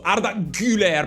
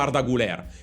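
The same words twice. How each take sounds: First: The surname's first vowel is a rounded front ü. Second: The surname's first vowel is a plain u. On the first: The speaker calls it right. "Avete notato come lo pronuncio giusto?" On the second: The speaker calls it wrong. "non si chiama Arda Güler, si chiama la U con la dieresi"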